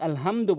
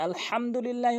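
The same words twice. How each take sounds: First: আলহামদু with a light plain h; mistaken small ha. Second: আলহামদুলিল্লাহ with h from mid-throat; correct throaty ha. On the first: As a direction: say আলহামদু without the throaty h. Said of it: "বড় হার জায়গায় ছোট হা". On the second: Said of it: "হাটি হলকের মাঝখান থেকে উচ্চারণ". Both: Shown as a demonstration.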